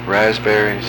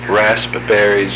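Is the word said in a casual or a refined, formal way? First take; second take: casual; refined. First: The word is said in an ordinary, casual way. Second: The word is said in a refined, formal way.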